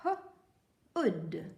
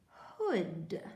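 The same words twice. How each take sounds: First: "H-ood" split into h then short oo; sounding out. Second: Said in the usual way. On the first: Shown as a demonstration. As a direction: sound out "H-ood" in two parts. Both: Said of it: "help me read".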